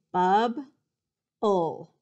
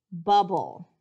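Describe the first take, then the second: First: "Bub-ble" broken into BUB, pause, BULL; "Bub-ble" slowly, each syllable on its own; split into syllables. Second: Said in the usual way. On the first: Shown as a demonstration. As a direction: say "Bub-ble" in two loud separate beats. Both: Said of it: "I'm gonna say the word a couple of times".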